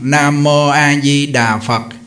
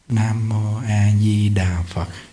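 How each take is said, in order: First: The phrase is said aloud in a loud voice. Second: The phrase is said aloud in a soft voice. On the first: "lớn tiếng nè, Nam Mô A Di Đà Phật ra tiếng" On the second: "Rồi niệm nhỏ"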